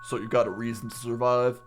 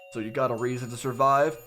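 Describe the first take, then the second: First: The put-on character voice stays steady. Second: The put-on character voice falters. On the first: The speaker calls it right. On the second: The speaker calls it wrong.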